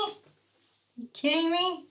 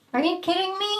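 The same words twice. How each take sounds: First: Slow, soft, drawn-out exasperation; exasperated. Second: High exasperated disbelief; rising incredulous question; disbelief at cat. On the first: Scolding the cat again, slower and softer in defeat. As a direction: let it sag in weary disbelief. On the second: Scolding the cat for meowing, incredulous. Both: Real, not acted.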